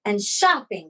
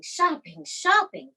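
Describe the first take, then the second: First: Said in the usual way. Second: Shopping, shopping pitched high with a falling end; rising emphasis. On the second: Retold or imitated. Boasting to the audience about the spree, building emphasis. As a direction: savour each repeated shopping, climbing higher.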